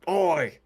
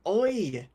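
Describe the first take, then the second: First: Shouted Australian Oi, a bit higher; mock Aussie shout. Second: Laughing Australian Oi; Oi in an Aussie voice. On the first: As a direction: call out Oi like an Aussie. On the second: Shown as a demonstration. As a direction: give it a proper Aussie Oi. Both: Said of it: "Or you do it better".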